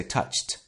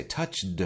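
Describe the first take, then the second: First: "touched" as one syllable, toucht; "touched" with unvoiced T after ch; correct T ending. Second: "touched" with a heavy voiced D; voiced D tacked onto "touched"; wrong D ending. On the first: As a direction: end "touched" on a crisp T. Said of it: "We say touched". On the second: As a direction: mispronounce "touched" as touch-duh. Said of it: "we don't say touched". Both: Shown as a demonstration.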